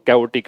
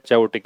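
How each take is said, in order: First: The word begins with a k sound. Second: The word begins with a ch sound. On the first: The speaker calls it right. "इसकी pronunciation कैओटिक है" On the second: The speaker calls it wrong. "चैओटिक नहीं है"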